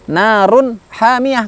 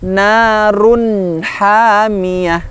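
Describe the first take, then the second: First: The nun sound is cut off abruptly. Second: The nun sound is held and fully completed. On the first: The speaker calls it wrong. "kurang sempurna" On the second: The speaker calls it right. "yang benar, yang lebih sempurna"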